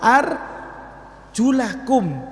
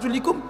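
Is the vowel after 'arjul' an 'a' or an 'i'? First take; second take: a; i. First: The vowel after 'arjul' is an 'a'. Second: The vowel after 'arjul' is an 'i'. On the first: The word is read in the accusative case. "bin nasab" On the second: The word is read in the genitive case. "ini dibaca jer"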